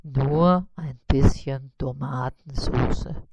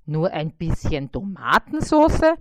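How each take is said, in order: First: Lower, slow, modest spider voice. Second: Louder, puzzled question in the fly voice; disbelieving fly. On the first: Spider naming his modest order, low and slow. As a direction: say it low and slow, almost shy. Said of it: "antwortete Karl-Heinz". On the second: Fly repeating the spider's order, puzzled and louder. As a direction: echo it back, baffled. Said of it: "Bissi repeats in disbelief". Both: A narrator's reading.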